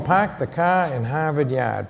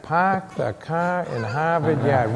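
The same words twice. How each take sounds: First: Put-on Boston accent. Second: Put-on slow, puzzled Boston accent, wondering aloud; slow puzzled repeat. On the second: A sixth grader puzzled by the teacher's line, slow Boston accent. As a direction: repeat it slowly in a Boston accent, not getting the joke. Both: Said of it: "I can remember sitting there going".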